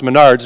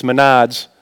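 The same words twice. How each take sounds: First: "Menards" said the standard way; plain pronunciation. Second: "Menards" with Minnesota vowels; Minnesota accent. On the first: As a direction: say "Menards" without a Minnesota accent. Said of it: "it's not pronounced Menards". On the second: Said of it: "I think it's from Minnesota". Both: Shown as a demonstration.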